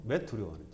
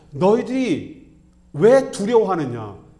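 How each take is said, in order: First: Soft, low, gentle reproach; hushed, restrained acted rebuke; Jesus. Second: Loud, high, forceful rebuke; acted-out thundering reproach; Jesus. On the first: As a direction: ask it quietly, voice dropped and falling. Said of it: "예수님의 책망은". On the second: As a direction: drag out the first word, scolding hard. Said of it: "이걸 책망하시는 겁니다".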